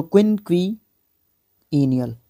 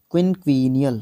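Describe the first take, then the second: First: क्विनक्विनियल stretched out slowly, each syllable clear; slow careful syllables. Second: Said in the usual way. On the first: Shown as a demonstration. Teacher re-pronouncing क्विनक्विनियल carefully after admitting mistakes, slow. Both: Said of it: "confess कर रहा हूँ आपके सामने".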